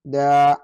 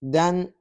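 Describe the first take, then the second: First: The syllable ends on a long open vowel. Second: The syllable ends with an n sound. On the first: The reciter pauses or stops here. "the second will ... be representing the uh, pausing mode" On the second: The recitation continues without stopping. "The first one will be serving as what? As recitation mode"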